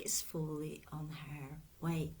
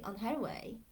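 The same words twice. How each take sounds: First: Said in the usual way. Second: Her leaned on a little, on her way; on HER way, her slightly stressed. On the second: Shown as a demonstration. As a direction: lean gently on the word her. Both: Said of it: "And I say on her way".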